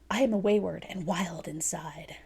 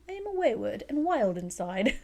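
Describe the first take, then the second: First: It is read in the speaker's own accent. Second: It is read in a put-on British accent.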